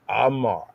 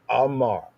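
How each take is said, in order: Both takes have the same delivery.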